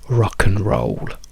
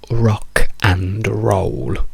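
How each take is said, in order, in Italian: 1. La parola 'and' si riduce a uno schwa. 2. La parola 'and' si dice per intero. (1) "la A diventa una schwa e la D scompare completamente" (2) "questa è la strong form"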